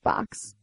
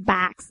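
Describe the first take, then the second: First: The vowel has a Boston quality. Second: The vowel has a Midwestern quality.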